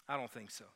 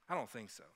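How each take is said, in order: No difference in how they are said.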